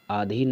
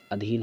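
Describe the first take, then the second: First: अधीन opening as aadheen; wrong long aa. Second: अधीन opening on brief a; correct short a. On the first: Teacher repeating the error, अधीन as aadheen. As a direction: stretch the first vowel of अधीन. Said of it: "अधीन नहीं होता". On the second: Teacher repeating the correction, अधीन with short a. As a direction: keep the start of अधीन short, adheen. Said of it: "अधीन होता है". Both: Shown as a demonstration.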